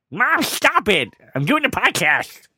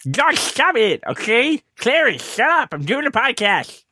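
First: Higher, sharp call at mom offscreen; scolding his mom for interrupting the podcast; telling mom off. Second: Hammed-up scolding of the dog; redoing it at the dog Clarence on request, mock yelling. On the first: Real, not acted. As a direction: shush your mom mid-recording. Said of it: "if you yelled at the dog that way". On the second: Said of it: "Would have been better if you yelled at the dog that way".

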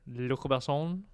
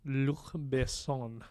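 First: French accent. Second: Slow, careful French Luc Besson; French accent. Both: Shown as a demonstration. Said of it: "really terrible French accent".

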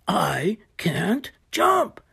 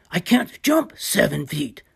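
First: Slow worried whisper. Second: Said in the usual way. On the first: Acted. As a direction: breathe it out, slowly. Hippo despairs under his breath.

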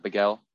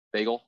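First: "bagel" said bih-gel, the mocked version; wrong pronunciation. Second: "bagel" with a short e, peg-ul; correct pronunciation. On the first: Mocking how annoying people say it, "bagel" as bih-gel. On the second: Naming the right way to say the word, "bagel" said as beg-el. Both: Shown as a demonstration. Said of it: "people who pronounce the word bagel".

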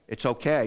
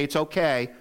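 First: A gentle, sincere "It's okay."; sincere forgiving. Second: A brushed-off "It's okay," that shrugs the hurt away; dismissive. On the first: Pastor showing the church what to say, sincere. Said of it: "We say". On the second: Pastor showing the wrong way to forgive, dismissive. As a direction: toss off "It's okay," as if it doesn't matter. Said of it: "We don't say". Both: Shown as a demonstration.

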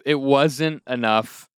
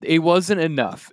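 First: "It" stressed, said slowly; slow it down, lean on "It". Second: "wasn't" lifted high and falling; stress on WASN'T. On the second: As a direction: hit "wasn't", fall at the end. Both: Shown as a demonstration.

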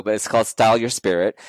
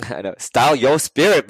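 First: Said in the usual way. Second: Laughing sheepishly. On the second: Real, not acted. Host shyly names her new series, laughing. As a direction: giggle at the name as you say it.

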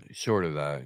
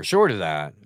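First: Short of that, let it drop away; losing the thread as you repeat; trailing off. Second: Short of that, pressed out; firm restart. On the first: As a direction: lower and softer, fading. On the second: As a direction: pick the thought up firmly. Repeats the phrase, first take. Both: Real, not acted.

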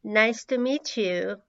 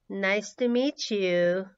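Both takes have the same delivery.

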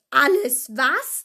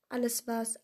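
First: Slow, loud, outraged question; booming incredulous roar; thundering. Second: Said in the usual way. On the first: A narrator's reading. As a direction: thunder it out, drawing out each word. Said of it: "donnerte Hagrid".

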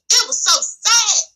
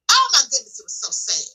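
First: Higher, slow, leaning on every word of "It was so sad"; emphatic repeat. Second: Sad. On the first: Repeating her sorrow to the viewers, higher and drawn out. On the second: Lamenting a scam on churchgoers. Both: Real, not acted.

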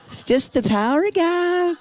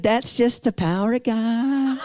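First: Much higher, lighter voice of the praying woman; praying woman repeats her answer, higher; high repeated reply. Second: Slow, chuckling voice of the praying woman; slow laughing answer to the frightened teen; laughing reply. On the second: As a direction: laugh through it, amused and sure. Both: Retold or imitated.

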